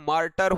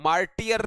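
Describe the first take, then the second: First: It is said with two syllables, mar-ter. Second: It is said with three syllables, mar-ti-er. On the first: The speaker calls it right. "ये मार्टर होता है" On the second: The speaker calls it wrong. "मार्टियर नहीं होता"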